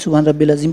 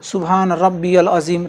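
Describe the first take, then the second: First: Rabbi runs straight into 'l' without a y-sound. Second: A y-sound links Rabbi to the 'l'. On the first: The speaker calls it wrong. "बहुत सारे लोग पढ़ते हैं ... तो ये भी गलत है" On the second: The speaker calls it right. "रब्बिल अज़ीम नहीं रब्बियल, ये को मिलाना है लाम से"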